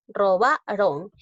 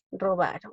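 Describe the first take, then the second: First: "Robaron" slowed, BA punched and held; teacher's slow, emphatic "Robaron", middle syllable stressed. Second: Said in the usual way. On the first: Shown as a demonstration. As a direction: break out the BA in "Robaron". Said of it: "fuerza de voz en la ba". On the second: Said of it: "no la he tildado la palabra".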